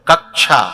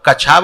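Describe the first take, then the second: First: The middle has a doubled k before sh. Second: The middle has a plain ch sound. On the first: The speaker calls it right. "उसमें एक का और है" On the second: The speaker calls it wrong. "तो कछा बोलना चाहिए"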